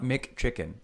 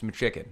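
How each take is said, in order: First: The two c sounds are said separately. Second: The two c sounds merge into one. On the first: The speaker calls it wrong. "It's not McChicken" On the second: The speaker calls it right. "when you put two consonants together, they make the same sound"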